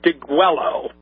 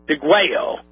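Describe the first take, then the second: First: The word is said with an English spelling-based pronunciation. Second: The word is said with a Spanish pronunciation. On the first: "for simplification purposes ... that's the phonetic pronunciation of it" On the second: "my initial gut feeling from what Spanish I do know is that would be pronounced"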